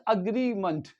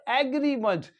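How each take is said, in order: First: "agreement" with a schwa start: uh-GREE-munt; corrected pronunciation. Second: "agreement" with an open a as in cat: AG-ree-munt; mistaken pronunciation. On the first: Teacher gives learners the corrected word, schwa pronunciation. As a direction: begin "agreement" on a short weak uh. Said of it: "This is agreement". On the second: Teacher shows own mistake to learners, mistaken open-a pronunciation. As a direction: start "agreement" on a clear "ag" as in bag, not a schwa. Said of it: "this is not agreement". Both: Shown as a demonstration.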